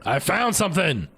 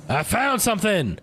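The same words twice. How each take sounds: First: Higher, bright cry of discovery; excited find. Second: Even higher, thrilled cry of discovery; more excited repeat. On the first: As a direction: shout out the find. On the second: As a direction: blurt it out, delighted. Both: Real, not acted.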